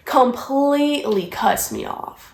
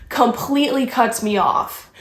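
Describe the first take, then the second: First: "Completely" pulled long and slow for emphasis; drawn-out COMPLETELY. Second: Said in the usual way. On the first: Real, not acted. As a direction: stretch out "Completely", slowly. Repeats line, drawing it out.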